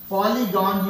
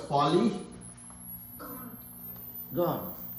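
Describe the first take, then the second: First: It is said smoothly as one word. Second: It is split into two words with a break. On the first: The speaker calls it right. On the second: The speaker calls it wrong.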